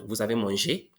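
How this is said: The voice rises at the end.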